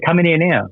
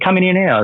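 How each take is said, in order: First: Higher, defiant call at the officer; retold shouted challenge. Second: Even higher, insistent call; retold shouted challenge, pushed higher. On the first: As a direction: shout the dare up high. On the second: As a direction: call him in, pitch climbing. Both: Challenging officer through cell door.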